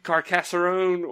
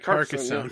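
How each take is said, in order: First: The name is said with four syllables. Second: The name is said with three syllables. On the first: The speaker calls it wrong. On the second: The speaker calls it right.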